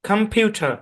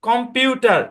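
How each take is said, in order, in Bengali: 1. প্রথম অংশে দুর্বল সোয়া স্বরধ্বনি আছে। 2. প্রথম অংশে শর্ট ও স্বরধ্বনি আছে। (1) "এখানেও সোয়া সাউন্ড অ্যাপ্লাই হবে" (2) "এরকম উচ্চারণ না? জি, আমরা সবাই এভাবেই করি"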